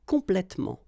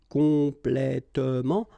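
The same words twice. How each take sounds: First: The e before -ment is dropped. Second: The e before -ment is pronounced.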